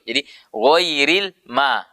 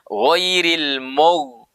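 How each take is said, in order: First: The m syllable is light, with an open mouth. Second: The m syllable is heavy and thickened. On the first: The speaker calls it right. "huruf mim harusnya kan ma tipis ya, dibuka mulut" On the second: The speaker calls it wrong. "huruf mim ikut tebal"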